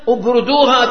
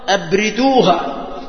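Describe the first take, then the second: First: The r carries a u vowel, with a connecting hamza. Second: The r carries an i vowel, with a firm hamza. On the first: "بضم الراء مع الوصل" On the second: "وبكسر الراء: أبردوها مع الهمزة، يعني همزة القطع"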